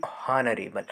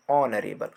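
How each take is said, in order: First: हॉनरेबल with a breathy h at the start; the wrong way, हॉनरेबल with h; wrong h sound. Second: ऑनरेबल said with no h sound, starting on ऑ; silent h. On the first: Teacher shows students the wrong हॉनरेबल with h. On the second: Teacher shows students ऑनरेबल without the h. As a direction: say ऑनरेबल, not हॉनरेबल. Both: Shown as a demonstration. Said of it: "ना कि हॉनरेबल".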